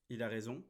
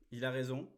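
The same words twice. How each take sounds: The two takes are said the same way.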